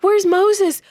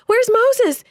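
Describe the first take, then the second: First: High, loud frightened wail; terrified crowd calling for Moses. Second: Even higher, louder desperate wail; the cry climbs into full panic; crowd's frantic repeat, pitched up further. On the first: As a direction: cry out for the leader in panic. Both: Acted. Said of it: "the people wailed".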